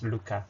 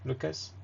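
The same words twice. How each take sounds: First: Luca said the French way, no final s; French-style "Luca"; French pronunciation. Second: Lucas said the English way, final s sounded; English-style "Lucas"; English pronunciation. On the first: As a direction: say "Luca" as in French, ending on an open a. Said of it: "but in French, I think it's". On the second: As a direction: say "Lucas" with an unstressed English ending and audible s. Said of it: "in English, uh, we pronounce it like". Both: Shown as a demonstration.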